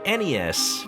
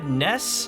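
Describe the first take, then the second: First: It is spelled out letter by letter. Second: It is said as a single word. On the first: The speaker calls it right. "it's just three big letters" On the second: The speaker calls it wrong. "it makes me feel like I'm talking about the character from Earthbound"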